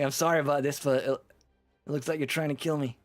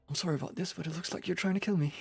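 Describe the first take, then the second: First: It is spoken in a New York accent. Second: It is spoken in an English accent. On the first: The speaker calls it right. "It's supposed to be a New York accent" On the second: The speaker calls it wrong. "I don't know why he suddenly switched to English"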